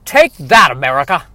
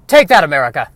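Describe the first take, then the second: First: Hammy action hero bark; movie line. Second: Movie line. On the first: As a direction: bold trailer hero shouting the line. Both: Acted. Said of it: "for the sake of that line right there".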